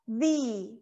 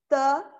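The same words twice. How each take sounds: First: The vowel is a longer 'ee' sound. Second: The vowel is a short, weak 'uh' sound. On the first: The next word starts with a vowel. "quando a palavra que vem depois, ela começa com uma vogal, nós vamos mudar um pouquinho a pronúncia" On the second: The next word starts with a consonant. "Normalmente, a pronúncia do T H ela é the"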